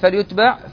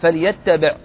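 First: The t sound is short and single. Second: The t sound is doubled and held longer. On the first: The speaker calls it right. "التخفيف أجود" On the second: The speaker calls it wrong. "بالتشديد"

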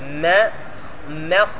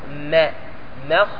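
The two takes are said the same way.

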